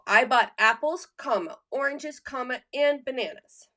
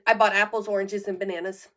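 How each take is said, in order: First: Each list item is separated by a pause. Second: The items run together with no pause. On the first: The speaker calls it right. "we're taking a comma" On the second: The speaker calls it wrong. "you say it all together, same pace. There's no pause, there's no breath"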